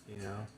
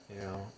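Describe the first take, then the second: Both takes have the same delivery.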